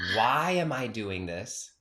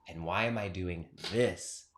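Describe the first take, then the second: First: The stress is on the word why. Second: The stress is on the word this.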